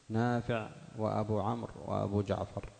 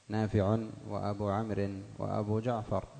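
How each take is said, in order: The two takes are said the same way.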